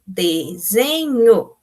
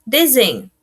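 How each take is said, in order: First: "Desenho" drawn out slowly as de-se-nho; syllable by syllable. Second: Said in the usual way. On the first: Shown as a demonstration. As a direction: split "Desenho" into three long, separate syllables. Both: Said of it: "separou a sílaba".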